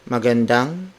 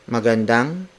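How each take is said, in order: The two takes are said the same way.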